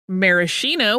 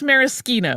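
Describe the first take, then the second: First: It is pronounced the American way. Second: It is pronounced the Italian way. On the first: "which is how we say it in the U S" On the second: "which is how it really is said in Italy"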